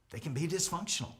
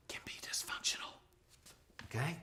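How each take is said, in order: First: Said in the usual way. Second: Hushed whisper on dysfunctional; breathy stage whisper. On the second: Shown as a demonstration. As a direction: whisper it like a secret. Whispered aside in lesson.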